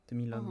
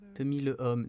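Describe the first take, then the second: First: The article is elided and joined to homme. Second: The article is a separate syllable before homme. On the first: The speaker calls it right. "you would say L apostrophe" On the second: The speaker calls it wrong. "you wouldn't say le"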